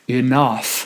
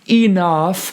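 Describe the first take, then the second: First: The stress is on the second syllable. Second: The stress is on the first syllable. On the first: The speaker calls it right. "the syllable that needs to be emphasized is the second syllable" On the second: The speaker calls it wrong. "then I'm emphasizing the first syllable"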